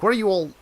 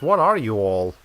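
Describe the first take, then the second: First: The question stops abruptly, as if interrupted. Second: The question sounds complete and finished. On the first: It starts asking what they are all doing. The speaker calls it right. "stop at that all in a, in like a an interrupted fashion" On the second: It asks what kind of creatures they are. The speaker calls it wrong. "That's that's asking it like, what are these creatures?"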